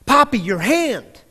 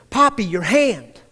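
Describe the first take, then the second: First: Higher and louder, slow insistent scream; child screaming, louder. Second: Put-on raised, slowed-down call of a little girl; child yelling. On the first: Retold or imitated. Daughter screaming at her father about his hand, louder mock scream. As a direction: push it up, now she's really screaming. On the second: Daughter yelling at her father across the dinner table, mock yell. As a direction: call out to Poppy, slower, with a louder push. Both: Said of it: "she started screaming".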